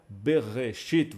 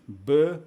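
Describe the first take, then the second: First: Said in the usual way. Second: "Bereshit" broken into be, re, shit with long pauses; teacher sounding out "Bereshit" one syllable at a time, widely spaced. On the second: Shown as a demonstration. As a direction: separate "Bereshit" into three isolated syllables: be... re... shit. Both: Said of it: "vamos fazer a separação assim".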